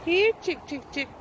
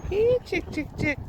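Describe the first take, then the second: First: High sing-song chicken call. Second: High sing-song chicken call, louder. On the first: Calling chickens at farm. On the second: Calling chickens again. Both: Real, not acted.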